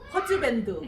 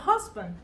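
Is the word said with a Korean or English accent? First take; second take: Korean; English. First: It is said with Korean syllables and vowels. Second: It is said with English sounds and rhythm. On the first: The speaker calls it wrong. "제가 제일 듣기 싫은 말은 이겁니다" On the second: The speaker calls it right. "이건 husband"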